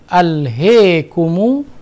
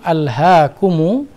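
First: The vowel after h leans strongly toward e. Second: The vowel after h is a fully open a. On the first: "imalah al-ha" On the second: "fathatul ha"

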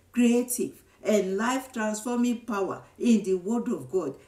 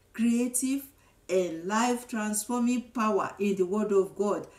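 Both takes have the same delivery.

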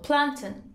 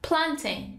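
First: The stress is on the first syllable. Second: The stress is on the second syllable.

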